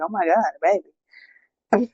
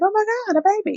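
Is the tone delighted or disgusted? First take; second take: disgusted; delighted. First: It sounds disgusted and unimpressed. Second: It sounds delighted and excited.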